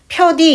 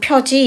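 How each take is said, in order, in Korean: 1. 마지막 음절은 d 소리로 시작해요. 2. 마지막 음절은 j 소리로 시작해요. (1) "옛날에는 펴디 이렇게" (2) "지금은 펴지 이렇게 돼 있고"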